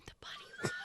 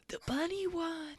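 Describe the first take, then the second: First: Excited high whisper; breathless high hushed whisper. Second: Put-on hushed kid. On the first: Acted. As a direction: kids whispering in awe. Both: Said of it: "everybody's just whispering".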